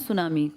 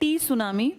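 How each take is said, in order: First: The word begins with an s sound. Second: The word begins with an audible t sound. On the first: This is how the word is spoken. "बोलते हैं सुनामी" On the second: This is how the word is written. "लिखते हैं टी सुनामी"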